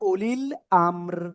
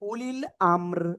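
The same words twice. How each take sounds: The two takes are said the same way.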